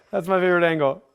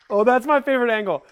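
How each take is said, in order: First: Said in the usual way. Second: Excited delight. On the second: Real, not acted. Rider rewatching the clip, delighted and lifted. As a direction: gush over the clip.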